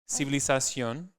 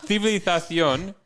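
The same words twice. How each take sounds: First: The 'z' sounds like a plain 's'. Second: The 'z' sounds like a 'th'.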